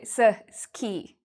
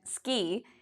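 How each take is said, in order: First: An extra vowel sound separates the s and k. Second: The s and k sounds join with no vowel. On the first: The speaker calls it wrong. "they might add a vowel" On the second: The speaker calls it right. "instead of pronouncing it ski"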